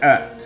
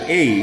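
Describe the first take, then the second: First: It is said with a short reduced 'uh' vowel. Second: It is said with a full 'ay' vowel. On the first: The speaker calls it right. "it sounds like a because we go like speeding up" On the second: The speaker calls it wrong. "doesn't sound like A"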